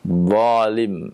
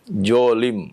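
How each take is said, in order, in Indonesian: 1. Kata ini diawali dengan bunyi dh emfatik. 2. Kata ini diawali dengan bunyi j.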